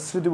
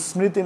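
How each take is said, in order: First: স্মৃতি as sriti, no m; silent m. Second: স্মৃতি as smriti, m sounded; m pronounced. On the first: Teacher showing what we say, স্মৃতি without m. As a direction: drop the m from স্মৃতি. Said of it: "আমরা স্মৃতি বলি". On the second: Teacher showing the unused form, স্মৃতি with its m. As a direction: keep the m in স্মৃতি. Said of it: "স্মৃতি না বলে". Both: Shown as a demonstration.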